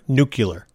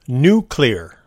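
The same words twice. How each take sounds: First: The word ends in a 'cular' sound. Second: The word ends in a 'clear' sound. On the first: The speaker calls it wrong. "because they used the word nuclear. It would set her off" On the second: The speaker calls it right. "Think about it like a new window cleaning product"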